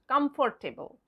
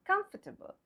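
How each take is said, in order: First: COMFORTABLE with full FOR and TAY; wrong pronunciation. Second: COMFORTABLE as KUMF-tuh-bul; correct pronunciation. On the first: Teacher warning against the mistake, COMFORTABLE said as spelt, cum-for-tay-bul. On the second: Teacher correcting the mistake for learners, COMFORTABLE as KUMF-tuh-bul. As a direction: say COMFORTABLE with O and R silent. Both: Shown as a demonstration. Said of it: "Not comfortable".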